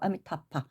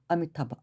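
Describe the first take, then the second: First: The last syllable starts with a harder 'p' sound. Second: The last syllable starts with a soft 'b' sound. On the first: "파라고 들리기도 하고" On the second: "그쪽은 아미타바, 아미타바, 아미타바 이렇게 하고"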